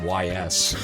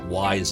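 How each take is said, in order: First: The name is spelled out as two letters. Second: The name sounds like the word 'wise'. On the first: "I also called it Y S" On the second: "I almost called it wise again"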